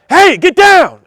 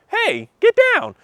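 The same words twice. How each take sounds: First: The voice sounds frantic and urgent. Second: The voice sounds calm and relaxed. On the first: Something alarming is going on. "your voice is gonna be crazy" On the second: Nothing is wrong. "as opposed to like"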